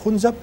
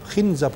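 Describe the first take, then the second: First: The first vowel is a rounded u sound. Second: The first vowel is a front i sound.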